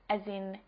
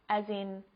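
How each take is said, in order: Both takes have the same delivery.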